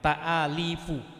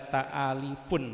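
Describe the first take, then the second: First: The word ends on a vowel without n. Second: The word ends with an added n sound. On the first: The speaker calls it right. "jangan pakai tanwin" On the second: The speaker calls it wrong. "Jangan dibaca ta'alifun ya"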